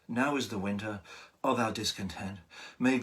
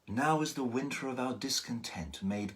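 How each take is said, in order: First: It stops for a breath after discontent. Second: It runs on without a pause after discontent. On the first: "if you decide to breathe in between" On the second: "you get this beautiful flow to the language"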